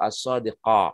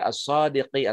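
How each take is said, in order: First: The word ends with an a vowel. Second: The word ends with an i vowel. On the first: "atau as-sadiqa" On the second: "enggak dibaca as-sadiqi"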